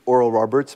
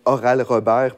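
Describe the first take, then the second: First: The name is said with an English pronunciation. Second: The name is said with a French pronunciation. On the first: This is how English speakers say it. "je l'ai prononcé comme je l'ai entendu toute ma vie" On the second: This is how French speakers say it. "c'est comme ça qu'on prononce en français"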